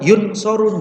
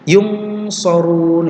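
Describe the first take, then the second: First: The n is pronounced clearly as n. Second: The n is a hidden ng-like nasal. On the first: The speaker calls it wrong. "Atau idhar yun sorun, bukan" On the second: The speaker calls it right. "kalau ikhfa kalau dengan sod itu kayak seperti ketemu dengan ng"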